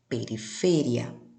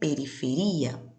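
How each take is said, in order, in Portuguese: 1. A tônica cai onde o espanhol a coloca. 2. A tônica cai onde o português a coloca. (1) "en la lengua española" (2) "No português eu digo"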